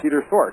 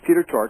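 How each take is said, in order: First: The surname starts with a breathy 'th' sound. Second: The surname starts with a plain 't' sound. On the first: The speaker calls it wrong. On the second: The speaker calls it right. "silent H"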